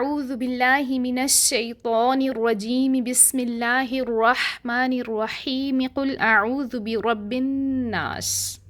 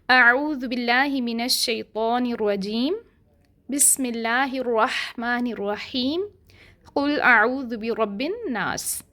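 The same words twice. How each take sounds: First: The phrases run together without any pause. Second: Each phrase is separated by a pause.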